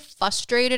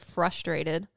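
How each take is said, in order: First: The R after the F is dropped. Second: The R after the F is clearly pronounced. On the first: "I say frustrated instead of" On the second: "instead of frustrated"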